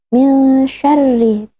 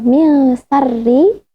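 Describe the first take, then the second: First: The word 'syarri' begins with an sh sound. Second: The word 'syarri' begins with an s sound. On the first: The speaker calls it right. "tapi min syarri bil shin" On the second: The speaker calls it wrong.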